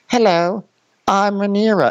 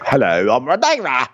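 First: High, refined mock British accent; young Rhaenyra's accent. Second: Exaggerated, broader mock British accent; adult Rhaenyra's accent. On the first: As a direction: imitate a young British princess, pitched high. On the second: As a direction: imitate a grown British woman, vowels shifted wide. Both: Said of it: "Your accent just changed regions".

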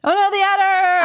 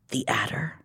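First: High, loud mock panic; mock alarm. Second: Hushed dread whisper. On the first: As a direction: cry it out in fake horror. Mock alarm at villain's return. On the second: Acted. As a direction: breathe the name out. Reading the dread reveal.

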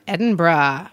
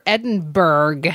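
First: Said in the usual way. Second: "Edinburgh" said as written, ending in "burg"; spelled-out pronunciation. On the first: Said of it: "or Edinburgh". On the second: Shown as a demonstration. Reading the postcard and joking about how Scots say their capital, "Edinburgh" pronounced "Edin-burg" as spelled. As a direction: read "Edinburgh" letter by letter as it looks, "Edin-burg". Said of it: "as it looks like".

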